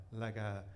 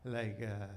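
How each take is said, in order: Both takes have the same delivery.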